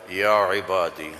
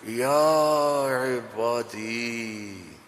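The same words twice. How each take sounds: First: It is said in a flat, plain tone. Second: It is said in a tender, loving tone.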